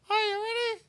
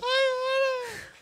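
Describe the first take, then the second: First: It is said at a lower pitch. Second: It is said at a higher pitch.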